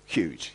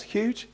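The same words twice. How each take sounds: First: "huge" dropped low and falling. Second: "Huge?" high with a rising question tune. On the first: Preacher stating how huge the verse is, low fall. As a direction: say "huge" low and flat as a statement. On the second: Preacher prompting the congregation, high rising question. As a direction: ask "Huge?" high, as if the crowd doubts it. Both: Shown as a demonstration.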